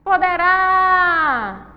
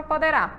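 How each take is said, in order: First: Poderá with RÁ held very long and high; stress on RÁ. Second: Said in the usual way. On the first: Shown as a demonstration. Teacher showing the strongest syllable, poderá with long high RÁ. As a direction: call out poderá, stretching the final RÁ. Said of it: "uraí é a sílaba mais forte". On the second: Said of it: "é a sílaba mais forte".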